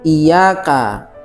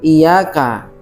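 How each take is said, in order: First: The y sound is single and short. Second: The y sound is single and short.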